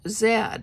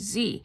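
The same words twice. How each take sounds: First: The letter is said in a non-American pronunciation. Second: The letter is said in an American pronunciation.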